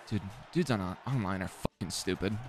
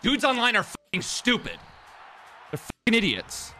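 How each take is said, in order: First: Soft, low-key grumble; muttered annoyance. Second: High-pitched angry complaint; exasperated outburst. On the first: Gamer complaining about online players, muttered annoyance. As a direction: grumble it quietly to yourself. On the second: Gamer fed up with online players, exasperated outburst. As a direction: let it burst out high and exasperated. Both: Real, not acted.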